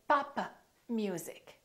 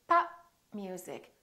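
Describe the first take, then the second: First: The p is released, adding an extra vowel. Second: The p is held without release before music. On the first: The speaker calls it wrong. "Don't say papa music" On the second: The speaker calls it right. "I didn't release my lips"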